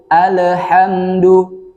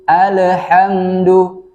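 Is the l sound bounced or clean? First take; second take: bounced; bounced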